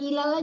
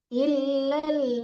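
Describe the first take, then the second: First: The l sound is short and single. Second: The l sound is held and doubled. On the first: The speaker calls it wrong. "jangan ilal aja" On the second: The speaker calls it right. "lamnya tasdid yang di bawah"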